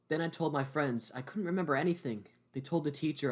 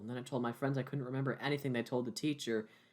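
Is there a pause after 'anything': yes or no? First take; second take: yes; no. First: There is a pause after anything. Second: It runs on with no pause after anything.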